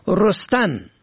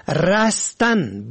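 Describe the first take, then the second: First: رستن said "rostan"; damma on first syllable. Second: رستن said "rastan"; fatha on first syllable. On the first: Presenter teaching the verb for sprouting, رستن as "rostan". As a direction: open رستن with short o. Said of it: "به ضم اول". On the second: Presenter teaching the verb for escaping, رستن as "rastan". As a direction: open رستن with short a. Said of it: "به فتح اول". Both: Shown as a demonstration.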